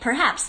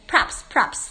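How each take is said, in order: First: Both syllables are pronounced fully and clearly. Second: It is squeezed into one short syllable. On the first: "你不会念perhaps" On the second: "你会念props"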